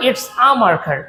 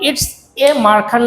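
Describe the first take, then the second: First: "a" pronounced as a short open "ah"; article as "ah". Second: "a" pronounced as the letter name "ay"; full "ay" article. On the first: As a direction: run "it's a" together as "its-ah" before marker. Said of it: "এ কে সঠিক উচ্চারণ আ বলবো". ("a" কে "আ" উচ্চারণ) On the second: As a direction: say "a" as "ay" before marker. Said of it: "আমরা এ কে এ বলবো না". ("a" কে "এ" উচ্চারণ) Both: Shown as a demonstration.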